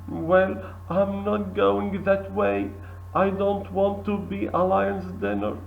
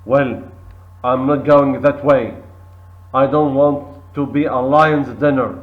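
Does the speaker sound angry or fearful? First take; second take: fearful; angry. First: The voice sounds fearful. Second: The voice sounds angry. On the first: "With fear"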